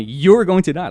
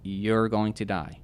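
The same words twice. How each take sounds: First: Loud, high imitation of a demon; retold threat, hurled out forcefully; demon's voice. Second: Drawn-out, evenly pitched pronouncement; slow retold thought. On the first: Man imitating the demon telling him he'll die, loud and forceful. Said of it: "a demon or, like, telling me". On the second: Man retelling the thought that hit him, slow pronouncement. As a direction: spell out the verdict slowly. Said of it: "we have this thought that".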